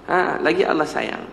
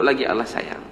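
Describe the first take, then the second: First: Slower, leaning on "lagi Allah sayang"; slow emphatic repeat. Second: Said in the usual way. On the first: Shown as a demonstration. Preacher repeating the lesson to the congregation, slow and emphatic. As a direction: drive the point home slowly.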